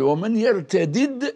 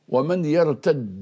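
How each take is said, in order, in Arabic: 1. يُنطق الدالان منفصلين. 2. يندمج الدالان في دال واحدة مشددة. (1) "نراها بفك الإدغام" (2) "على لغة التميميين"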